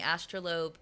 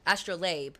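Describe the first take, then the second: First: "Astrolabe" with last syllable like "lobe"; mispronounced astrolabe. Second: "Astrolabe" with last syllable "layb"; corrected astrolabe. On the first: Streamer reading chat's explanation, slipping to "astro-lobe" on "Astrolabe". Slip, corrected right after. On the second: Streamer fixing a reading slip, "Astrolabe" ending in "layb". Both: Real, not acted.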